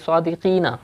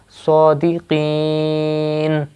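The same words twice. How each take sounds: First: The word ends with a short a vowel. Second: The word ends on a bare final n. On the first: The reader continues without pausing. "Without waqf, it is" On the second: The reader is pausing here to take a breath. "you will make this noon sakin"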